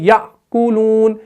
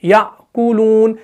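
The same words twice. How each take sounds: First: The first syllable closes with a glottal stop. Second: The first syllable closes with a glottal stop.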